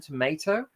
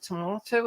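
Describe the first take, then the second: First: "tomato" said tuh-MAY-toh; American pronunciation. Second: "tomato" said tuh-MAH-toh; long ah in the middle of "tomato"; British pronunciation. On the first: Streamer showing two ways of saying a word, American "tomato" with ay. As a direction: middle of "tomato" rhymes with day. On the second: Streamer showing two ways of saying a word, British "tomato" with ah. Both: Shown as a demonstration. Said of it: "two different ways of saying things".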